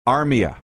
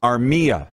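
First: The stress falls on the first syllable. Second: The stress falls on the middle syllable. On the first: The speaker calls it wrong. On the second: The speaker calls it right. "Middle syllable"

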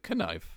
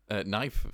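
First: The word starts with a sounded k. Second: The word starts with a silent k.

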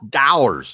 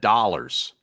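First: It is said with a Philadelphia local accent. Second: It is said with a standard general accent.

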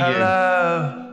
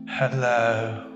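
First: It is said very loudly. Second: It is said very quietly.

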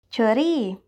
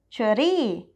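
First: It is said with a Thai pronunciation. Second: It is said with a Thai pronunciation.

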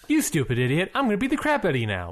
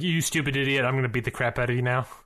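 First: It is said in a happy, gleeful tone. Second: It is said in an angry, menacing tone.

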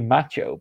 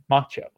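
First: It is said with a British pronunciation. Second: It is said with an American pronunciation.

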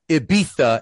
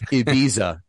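First: The middle consonant sounds like 'th'. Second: The middle consonant sounds like 's'. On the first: "Castilian Spanish" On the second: "Latin Spanish"

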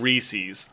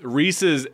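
First: The last syllable has a long ee vowel. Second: The last syllable has a short i vowel. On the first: The speaker calls it wrong. "We said it wrong" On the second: The speaker calls it right. "It's Reese's"

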